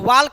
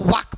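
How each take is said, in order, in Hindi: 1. K से पहले L बोला जाता है। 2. K से पहले L साइलेंट होता है। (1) "वाल्क नहीं पढ़ेंगे" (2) "इसको वाक पढ़ेंगे"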